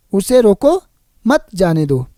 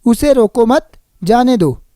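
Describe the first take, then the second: First: Rising "उसे रोको", break, then "मत जाने दो" falling; pause after रोको. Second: "रोको मत" run together, then a break before "जाने दो"; group "मत" with "उसे रोको", then pause; pause after मत. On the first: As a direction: pause before "मत", joining it to "जाने दो". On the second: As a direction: lift on "मत", pause, falling "जाने दो". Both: Shown as a demonstration. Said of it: "विराम चिन्हों के बदलने से".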